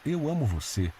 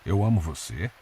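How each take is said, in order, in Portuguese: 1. A voz cai no final, como uma afirmação. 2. A voz sobe no final, como uma pergunta. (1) "dita com gentileza e ternura" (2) "O ponto de interrogação muda todo o sentido"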